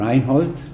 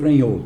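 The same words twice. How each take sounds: First: The name is pronounced the original German way. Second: The name is pronounced the adapted Portuguese way. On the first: This is how the name is pronounced in its original language. "que seria a pronúncia correta" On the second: This is how everyone actually calls him. "Mas acabou ficando Reinhold"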